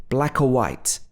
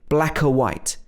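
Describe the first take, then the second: The two takes are said the same way.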